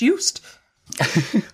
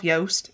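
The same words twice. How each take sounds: First: The vowel has a foreign, non-English sound. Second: The vowel rhymes with the English word toast. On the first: The speaker calls it right. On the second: The speaker calls it wrong. "Don't call yourself"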